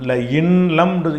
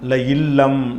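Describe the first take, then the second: First: The n is pronounced clearly before the l. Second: The n blends into a doubled l sound. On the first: The speaker calls it wrong. "இன்னு கொடுக்கல" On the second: The speaker calls it right. "இன் லம் அப்படி சொல்லாமல் ல இல்லம்"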